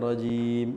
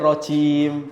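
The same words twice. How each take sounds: First: The final j is plain and natural. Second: The final j sounds thin, like ch. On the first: The speaker calls it right. "Padahal biasa aja" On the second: The speaker calls it wrong.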